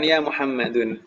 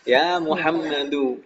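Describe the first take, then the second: First: The name ends with an added n sound. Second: The name ends in a plain u vowel. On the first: The speaker calls it wrong. "bukan ya Muhammadun" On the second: The speaker calls it right. "tidak boleh tanwin"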